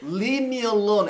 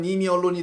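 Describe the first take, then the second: First: The phrase begins with a clear L sound. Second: The phrase begins with an N sound. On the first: It asks to be left alone. The speaker calls it right. "L 발음 잘하라고요" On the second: It sounds like a curse word. The speaker calls it wrong. "발음 잘못하면 님이 언론이 됩니다. 욕이 돼요"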